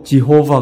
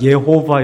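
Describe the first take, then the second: First: The name begins with a J sound. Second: The name begins with a Y sound. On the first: This is the English way of saying the name. "영어로 지호바 그래" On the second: This is closer to the original Hebrew way of saying the name. "예호바 이렇게"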